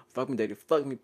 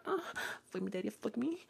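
First: Lightly imitated moan, near usual pitch; half-hearted replay of a moan; mock moaning. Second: High, hushed imitation moan; mock moaning. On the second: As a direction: act out a moan, high and very soft. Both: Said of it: "I was moaning really fucking loud".

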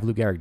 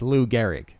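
First: "Lou Gehrig" joined up like a single word; run as one word. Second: "Lou Gehrig" with Lou set apart from Gehrig; two separate words. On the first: Acted. Comic mimicking the mistaken, "Lou Gehrig" as one word. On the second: Shown as a demonstration. Comic correcting the mistaken, "Lou Gehrig" as two words. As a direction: correct it, giving "Lou" and "Gehrig" each their own weight. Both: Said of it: "think Lou Gehrig is one word".

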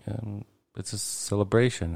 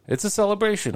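First: Said in the usual way. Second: High, bright burst of celebration; excited exclaim. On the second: Real, not acted. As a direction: throw it up high with joy.

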